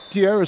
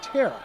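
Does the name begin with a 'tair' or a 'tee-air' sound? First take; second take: tee-air; tair. First: The name begins with a 'tee-air' sound. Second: The name begins with a plain 'tair' sound. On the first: The speaker calls it wrong. "I have, had been saying Tierra State" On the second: The speaker calls it right. "and it's Terra, just Terra"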